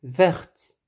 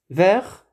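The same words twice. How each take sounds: First: "Verte." with the T clearly released at the end; sounded final T. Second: "Vert," ending on the R with no T; silent final T. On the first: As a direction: finish "Verte." on an audible T. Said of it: "On prononce le T". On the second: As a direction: leave the T off the end of "Vert,". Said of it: "santé". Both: Shown as a demonstration.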